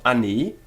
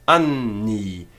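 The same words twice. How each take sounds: First: "ani" with one short n, no hold; single N. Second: "anni" slow, the n held long into both syllables; doubled N. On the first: Teacher showing the mistake, "ani" with a single short n. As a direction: pass quickly over the n of "ani". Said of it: "It's not ani". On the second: Teacher giving the correct form, "anni" with double n. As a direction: linger on the nn of "anni". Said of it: "It's not ani, but anni". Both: Shown as a demonstration.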